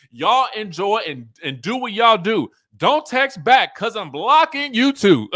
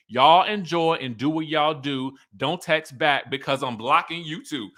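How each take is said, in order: First: Rising, louder, cracking up by the end; higher and louder, laughing through the last line; laughing reread. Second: Said in the usual way. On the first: Retold or imitated. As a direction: reread the text as the laughter takes over. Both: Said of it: "I didn't even realize it rhymed".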